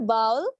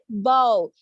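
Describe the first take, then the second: First: The first sound is soft and light. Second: The first sound is forceful and ringing. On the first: The speaker calls it wrong. "It's not a bowl" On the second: The speaker calls it right. "Listen, bowl"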